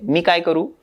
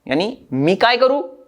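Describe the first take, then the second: First: It is said flat, like a plain statement. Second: It is said with stronger tone, like a question.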